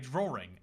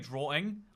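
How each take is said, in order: First: An R sound is inserted in the middle. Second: No R sound is heard in the middle. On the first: "There's an R in there for no reason" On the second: "I don't say drawing"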